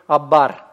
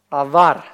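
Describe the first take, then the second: First: The middle consonant is a stopped b sound. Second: The middle consonant is a fricative v sound. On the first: The speaker calls it wrong. "я не говорю абар" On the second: The speaker calls it right. "без точки"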